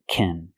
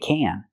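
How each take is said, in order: First: The word is unstressed with a reduced vowel. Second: The word is stressed with a full vowel. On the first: A verb follows the word. "because it's not a stressed word" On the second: No verb follows the word. "If it does not include a verb, then you say can"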